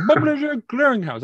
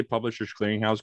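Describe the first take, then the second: First: High, loud mock Jamaican mangling of "Publisher Clearinghouse"; heavy Jamaican accent. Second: Said in the usual way. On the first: Caller garbling the company name, heavy Jamaican accent. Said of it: "couldn't say Publisher's Clearinghouse correctly". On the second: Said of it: "you couldn't say Publisher's Clearinghouse correctly".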